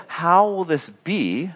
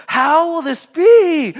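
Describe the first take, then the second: First: Said in the usual way. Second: Very high, loud, drawn-out question; hammed-up bewilderment; mock incredulous outburst. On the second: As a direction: blurt it in exaggerated disbelief. Mary's bewildered question, acted out.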